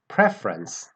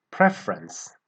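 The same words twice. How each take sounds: First: Preference, stress on PRE. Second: Preference with PRE stressed. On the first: Teacher contrasting preference with prefer, stress on PRE. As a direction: hit the first syllable PRE of preference. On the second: Teacher modelling Preference for learners, first syllable stressed. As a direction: open Preference on a strong PRE. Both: Shown as a demonstration. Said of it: "The stress comes ... on the first syllable".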